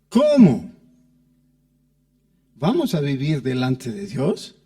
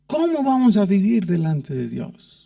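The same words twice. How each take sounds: First: A break splits 'cómo' from the following question. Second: The whole question flows on without a break. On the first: It doubts whether we will live before God at all. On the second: It asks in what way we will live before God.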